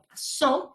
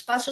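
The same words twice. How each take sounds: First: "pasó" as pa-SÓ, drawn out on SÓ; slow down and raise the final syllable of "pasó"; last-syllable stress. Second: "paso" as PA-so, stress on PA; first-syllable stress. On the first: Teacher giving the accented word, "pasó" stressed on a high, long SÓ. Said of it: "entonces necesitamos el acento ortográfico". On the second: Teacher showing what it is not, "paso" stressed on PA. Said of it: "es necesario marcar la palabra con un acento". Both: Shown as a demonstration.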